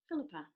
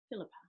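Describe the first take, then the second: First: The name is said in a warm, kind voice. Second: The name is said in a flat, neutral voice. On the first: "what does a kind voice sound like?" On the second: "your own name with a neutral voice"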